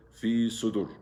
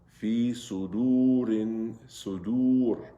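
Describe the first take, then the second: First: Fi sudur said quickly, the last oo cut short; wrong short vowel. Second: Fi sudurin sudur slowly chanted, each long vowel held; correct elongation. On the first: Teacher shows what not to say, sudur cut short. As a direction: say sudur without stretching its vowel. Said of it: "We don't say". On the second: Teacher models the rule, sudurin sudur drawn out long. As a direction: stretch the oo in sudurin and sudur on a level note. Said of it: "So we have to say". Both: Shown as a demonstration.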